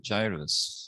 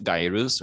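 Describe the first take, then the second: First: "gyrus" with a soft g, JAI-rus; "gyrus" pronounced with a j sound. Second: "gyrus" with a hard g, GUY-rus; "gyrus" pronounced with a hard G. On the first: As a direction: say "gyrus" starting like J. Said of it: "the cat is correct". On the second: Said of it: "which one's the connect". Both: Shown as a demonstration.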